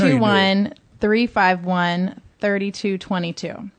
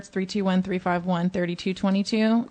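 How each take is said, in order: First: The number is said slowly. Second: The number is said fast.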